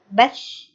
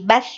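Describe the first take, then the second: First: The final consonant is held with flowing breath. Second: The final consonant is cut off quickly. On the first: The speaker calls it right. "harus mengalir nafasnya" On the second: The speaker calls it wrong. "nggak boleh uh, tergesa-gesa"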